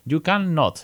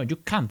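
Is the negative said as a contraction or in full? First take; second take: full; contraction. First: The negative is said in full, longer form. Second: The negative is contracted into one short word.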